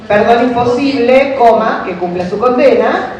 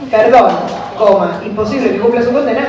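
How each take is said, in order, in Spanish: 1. La pausa va después de la palabra 'imposible'. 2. La pausa va después de la palabra 'perdón'. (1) "Perdón imposible, coma" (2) "Perdón, coma"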